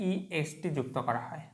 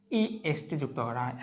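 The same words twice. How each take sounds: The two takes are said the same way.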